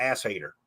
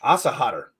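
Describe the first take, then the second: First: "ass hater" with flat a, then HAY-ter; anglicized pronunciation. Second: "Asenhader" with broad ah vowels, as a German name; German pronunciation. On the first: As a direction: say "ass hater" as two plain English words. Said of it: "the guitar world, we call it". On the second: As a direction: say "Asenhader" as AH-sa-hah-ter. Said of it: "This one I can pronounce". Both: Shown as a demonstration.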